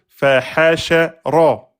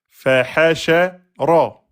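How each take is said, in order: No difference in how they are said.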